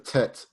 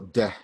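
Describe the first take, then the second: First: The first consonant is a hard t sound. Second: The first consonant is a soft d-like sound. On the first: The speaker calls it wrong. "it's not hard like that" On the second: The speaker calls it right. "Use a more softer, like a d sound"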